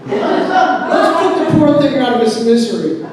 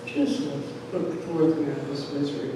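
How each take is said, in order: First: High, loud, hammed-up proposal; father's loud declaration. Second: Softer, lower, quick aside; offhand father. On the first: Father coming in with carving knife, loud declaration. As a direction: announce it boldly as the dad. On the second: Retold or imitated. Father, on the other hand, wanting it over, offhand. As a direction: toss it off as the unmoved dad.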